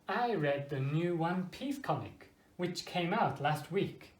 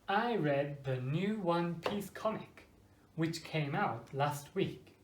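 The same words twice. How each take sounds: First: The sentence is said at a normal, quicker pace. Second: The sentence is said at a slower pace.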